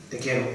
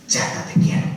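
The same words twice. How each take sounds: First: Said in the usual way. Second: Whispered Chata, te quiero; an intimate whisper from the heart; tender whisper. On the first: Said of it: "¿Así?". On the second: Shown as a demonstration. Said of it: "Así".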